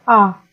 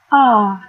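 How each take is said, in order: First: The pitch falls from high to low. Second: The pitch dips down and then rises. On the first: "nada menurun" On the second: "nadanya melengkung, seperti di ayun gitu"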